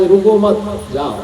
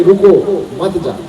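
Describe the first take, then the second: First: "रुको मत" together, break, then "जाओ"; pause after मत. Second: "रुको", clear pause, then "मत जाओ"; pause after रुको. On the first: Teacher showing a stop order gone wrong, pause after "मत". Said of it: "यदि किसी को रोकना हो". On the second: Teacher showing permission turned into a ban, pause after "रुको". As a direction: break after "रुको", keep "मत जाओ" together. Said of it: "जाने की इजाजत देना हो". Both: Shown as a demonstration.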